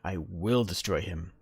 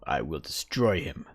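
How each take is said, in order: First: The word will carries the main stress. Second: The word destroy carries the main stress. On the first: The speaker is confident in a thought-out decision. The speaker calls it right. "means it's already rationalized" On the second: The speaker is angry about the action. The speaker calls it wrong. "Very aggressive"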